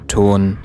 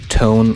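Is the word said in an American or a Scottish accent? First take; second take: Scottish; American. First: It has a Scottish pure o vowel. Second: It has an American gliding o vowel.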